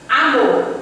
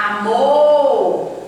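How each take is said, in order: First: Said in the usual way. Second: "amor" called out with a long drawn-out "mor"; calling the word. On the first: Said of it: "Como é que eu vou saber qual é a sílaba tônica". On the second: Shown as a demonstration. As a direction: hold the stressed end of "amor", as if calling it. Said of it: "você vai ter que chamar a palavra".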